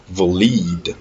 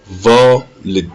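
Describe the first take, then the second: First: Valid as va-LEED, long second syllable; wrongly weight the end of valid; stress on LID. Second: Valid as VA-lid, first syllable punched; strong VA, short "lid" in valid; stress on VA. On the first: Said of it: "Si l'accent était sur le lid". (valid accentué à tort sur LID) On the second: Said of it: "Ici, l'accent est sur le va". (valid accentué sur VA) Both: Shown as a demonstration.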